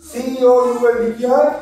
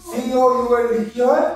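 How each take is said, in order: Both takes have the same delivery.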